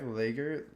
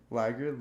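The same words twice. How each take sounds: First: Lagger said as "LAY-ger"; long-a lagger. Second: Said in the usual way. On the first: Real, not acted. Word list, tries two pronunciations.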